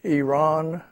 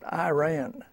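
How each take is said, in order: First: Said the local Middle Eastern way. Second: Said the common American way. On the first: The speaker calls it right. "It's Iran" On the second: The speaker calls it wrong. "not Iran"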